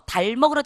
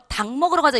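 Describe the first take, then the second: First: The first word ends in an l sound. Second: The first word ends in a k sound. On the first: The speaker calls it wrong. "이러면 이상한 사람이에요" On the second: The speaker calls it right. "닭이라고 하면 닭 먹으러 가자 이렇게 얘기하죠"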